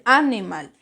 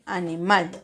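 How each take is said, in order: First: The stress falls before the last syllable. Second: The stress falls on the last syllable. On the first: The speaker calls it wrong. "usted no dice animal" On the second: The speaker calls it right. "dice animal. ¿Dónde está la mayor fuerza de voz? En mal"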